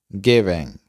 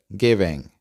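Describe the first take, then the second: No difference in how they are said.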